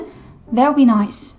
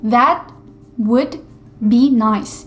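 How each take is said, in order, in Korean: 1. 단어들이 줄어들고 서로 붙어서 발음돼요. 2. 각 단어가 완전하고 따로따로 발음돼요. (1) "실제로 원어민은 that would be nice 이런 식으로 말을 하니까" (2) "이렇게 들려야 되는데"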